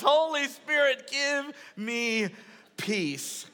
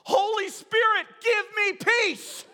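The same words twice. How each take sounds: First: Milder retold yell. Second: High, loud imitation of a child yelling; bold yell. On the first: Preacher repeating his daughter's prayer to the congregation, milder mock yell. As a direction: recap the child's yell, easing down on the last word. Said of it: "She yells". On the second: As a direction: cry it out boldly, stretching the last words. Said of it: "stands up boldly and yells".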